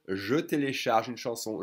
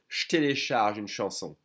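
First: The 'je' is pronounced fully with its vowel. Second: The 'je' merges with 't' into an 'sh' sound. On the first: "you can totally say" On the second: "the French will say"

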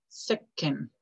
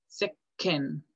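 The two takes are said the same way.

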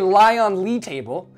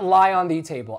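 First: The word before 'table' sounds like 'Lee'. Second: The word before 'table' sounds like 'the'. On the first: The speaker calls it right. "This is a lie on Lee table" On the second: The speaker calls it wrong. "not lie on the table"

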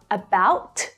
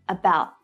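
First: The final T is fully released with a puff of air. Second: The final T is stopped without releasing the air. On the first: The speaker calls it wrong. "Not about" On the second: The speaker calls it right. "but about. Don't release the air"

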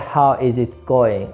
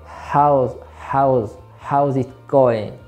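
First: The words 'how is' are said in full. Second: The words 'how is' are contracted to 'how's'. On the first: The speaker calls it wrong. "you don't say how is it going" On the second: The speaker calls it right. "You say how's it going?"

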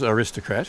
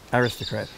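First: It is said with an American pronunciation. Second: It is said with an English pronunciation. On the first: The speaker calls it wrong. "what you just said is the American pronunciation" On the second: The speaker calls it right. "but it really should be Aristocrat"

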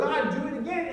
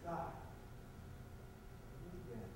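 First: It is said loudly, with more force. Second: It is said quietly, in a small voice.

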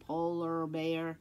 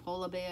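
First: It is said without the Boston accent, r pronounced. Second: It is said in a Boston accent, r dropped. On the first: "I'm not saying polar bear" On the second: "see how I'm saying polar bear"

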